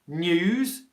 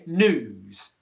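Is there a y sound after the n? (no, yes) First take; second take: yes; no. First: A y sound comes after the n. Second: No y sound comes after the n. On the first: The speaker calls it right. "have this y in before the, the u spelling" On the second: The speaker calls it wrong. "where you don't make that y sound"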